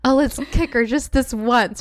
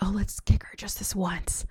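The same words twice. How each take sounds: First: It is read in a normal speaking voice. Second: It is said in a whisper.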